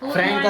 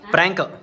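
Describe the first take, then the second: First: The word begins with an f sound. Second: The word begins with a p sound. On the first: The speaker calls it wrong. "ಫ್ರ್ಯಾಂಕ್ ಅಲ್ಲ" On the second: The speaker calls it right.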